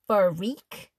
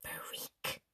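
First: "freak." stretched into two syllables, fuh-reak, rising at the end. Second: "Freak." hissed, voiceless and much softer; a mean girl leaning over to hiss "Freak." at Mia. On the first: Shown as a demonstration. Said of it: "she said it like it had more than one syllable". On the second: Acted. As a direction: spit "Freak." out as a nasty whisper. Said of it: "hissed in this really mean voice".

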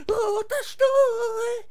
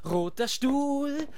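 First: Very high, slow, loud wail; drawn-out high wailing cry; wailing climax. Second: Drawn-out slow chant; chanted, stretch each word slowly. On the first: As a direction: let the chant burst into a howl. Chant peaks in a wail. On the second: Start of a building chant. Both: Acted.

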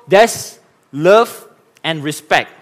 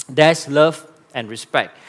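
First: Slow, drawn-out and a touch louder; slow emphatic. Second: Said in the usual way. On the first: Shown as a demonstration. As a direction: lean on each word slowly. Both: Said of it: "Let me repeat myself".

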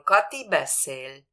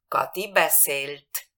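First: Said in the usual way. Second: Slow beszélt, final t crisp; past T marked. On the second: Shown as a demonstration. Teacher showing the past tense t, slow and clear. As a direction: spell out the t at the end of beszélt. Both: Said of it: "Si la veo con T".

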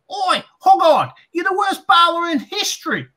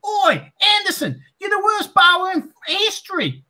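First: Heckling fan. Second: High mock heckler shout; heckling fan. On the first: Retold or imitated. Fan mocking the bowler from the crowd, high jeering yell. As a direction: yell it down from the stands. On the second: Fan taunting Anderson as he walks out, high shouted jeer. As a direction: bellow it across the ground.

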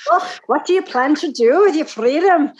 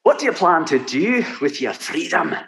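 First: Trying a Highland Scottish lilt; imitating Highland accent. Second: Highland lilt, pitched up; Highland Scottish accent. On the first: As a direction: attempt a Highlander, half-hearted. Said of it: "I could almost get there if I practice". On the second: Shown as a demonstration. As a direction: repeat the line as a Highlander. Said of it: "Do it again".

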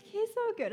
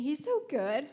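First: Higher, gushing over how good he is; excited. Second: Said in the usual way. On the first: Real, not acted. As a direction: lift it up in delight. Praising the Lord, lifted.

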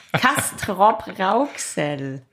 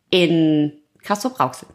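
First: „Castrop-Rauxel“ sehr langsam und deutlich; „Castrop-Rauxel“ Silbe für Silbe sauber sprechen. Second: Leicht lallend nach Bier. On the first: Shown as a demonstration. („Castrop-Rauxel“ betont deutlich artikuliert) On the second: Real, not acted. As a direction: die Konsonanten verschleifen. (leicht angetrunken lallend) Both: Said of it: "ich lalle".

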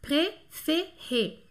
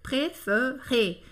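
First: "préféré" with all three vowels a closed é, very slow; three é sounds. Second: "préféré" said as pré-feu-ré, middle vowel a dull schwa; middle accent removed. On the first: Teacher showing the three Es share one sound, "préféré" in slow syllables. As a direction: separate each syllable of "préféré", every E sounding é. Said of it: "os três têm um som E". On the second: Teacher showing what losing an accent does, "préféré" with schwa in the middle. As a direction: slowly say "préféré" with the middle é turned to 'uh'. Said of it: "Aí fica assim, préféré".

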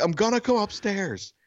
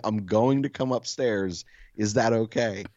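First: High-pitched call up the stairs; retold calling out. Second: Slow, courteous announcement, lightly acted; mock-polite burglar. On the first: Neighbor warning the silent homeowner, high retold call. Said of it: "She's not answering. I'm like". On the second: Burglar asking leave to come upstairs, mock-polite. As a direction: ask permission with exaggerated politeness, unhurried. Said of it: "most polite fucking burglar ever".

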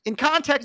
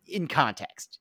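First: "In context" said higher and louder, emphatic; stress on context. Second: Said in the usual way. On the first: Shown as a demonstration. Correcting herself about the sick baby joke, emphatic higher "In context". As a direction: punch "In context" up high.

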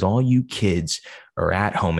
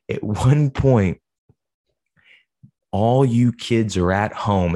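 First: Said in the usual way. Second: Wrestling promo voice. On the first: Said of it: "he says". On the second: Retold or imitated. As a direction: cut a mock wrestling promo at the kids. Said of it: "He said".

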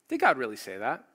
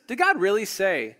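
First: "Did God really say that?" lower, with "God" lifted and the tune rising at the end; lower, questioning rise. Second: "Did God really say?" with "God" lifted higher and louder, falling at the end; insinuating stress on God. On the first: Preacher voicing the serpent again, dropping to a questioning rise. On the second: Preacher voicing the serpent's doubt, punching "God". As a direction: lean hard on "God" like a sly challenge. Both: Acted. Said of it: "he's asking a question about God's goodness".

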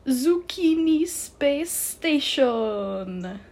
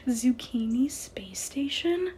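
First: Put-on loud, high, very slow French-accented proclamation; outrageous French accent. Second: Slow, high question after a laugh; amused disbelief. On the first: The bow revealing its name, triumphant French accent. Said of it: "outrageous and completely unnecessary French accent". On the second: Ainsley laughing at the bow's name, amused disbelief. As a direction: repeat it incredulously, rising at the end. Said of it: "Ainsley started to laugh". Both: A narrator's reading.

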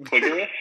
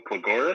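First: Cligoris stressed on CLIG, higher and questioning; alternate pronunciation. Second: Cligoris stressed on GOR, as a question; alternate pronunciation. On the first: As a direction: say Cligoris as KLIG-er-is, pitch rising. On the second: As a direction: say Cligoris as kli-GOR-is, hesitantly asking. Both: Retold or imitated. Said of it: "Either pronunciation is fine".

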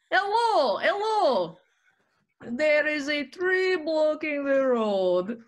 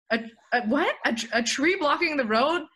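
First: Put-on high-pitched, slow Russian accent; Russian driver calling out, words drawn out. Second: Raised, stammered retold disbelief; acting out a confused double-take; baffled echo. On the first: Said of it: "person that was Russian". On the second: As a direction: repeat it back as a puzzled question. Retells own baffled reply to driver.

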